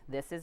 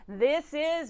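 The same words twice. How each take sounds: First: The voice sounds held back, without resonance. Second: The voice sounds buzzy and resonant in the face. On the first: The speaker calls it wrong. "this is not resonant" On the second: The speaker calls it right. "this is resonant"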